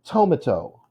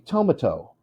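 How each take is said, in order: No difference in how they are said.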